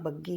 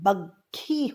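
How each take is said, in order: First: The double consonant is unaspirated. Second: The double consonant is aspirated. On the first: The speaker calls it wrong. "जिसे हम बग्गी बोलते हैं" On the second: The speaker calls it right. "बग्घी होता है"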